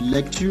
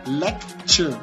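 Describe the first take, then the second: First: The middle consonant is a plain t sound. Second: The middle consonant is a ch sound. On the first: "aucune différence" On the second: "Le premier c'est lec et puis che"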